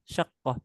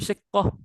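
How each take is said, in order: First: The first vowel is an 'a' sound. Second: The first vowel is an 'i' sound. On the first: "pakai fathah ya shinnya?" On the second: "Kok pakai kasroh shinnya?"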